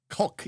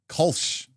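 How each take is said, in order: First: The name ends with a 'k' sound. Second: The name ends with an 'sh' sound. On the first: "Kulk is the official way" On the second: "Kolsch is okay"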